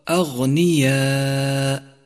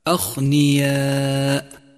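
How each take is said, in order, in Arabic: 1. صوت gh مجهور. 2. صوت gh مهموس، مثل kh. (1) "والصواب" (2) "فإذا همسته انقلب إلى خاء"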